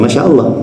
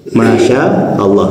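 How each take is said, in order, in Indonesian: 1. Vokalnya diucapkan pendek. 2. Vokalnya diucapkan panjang. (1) "jadi pendek gitu ya" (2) "maknya panjang, sya-nya panjang"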